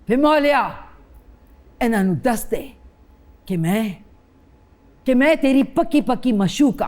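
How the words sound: It is said in intense anger.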